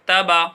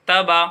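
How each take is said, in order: The two takes are said the same way.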